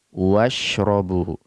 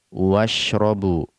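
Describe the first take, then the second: No difference in how they are said.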